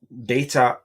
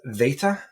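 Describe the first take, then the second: First: The word begins with a hard B sound. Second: The word begins with a V sound. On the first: The speaker calls it wrong. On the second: The speaker calls it right.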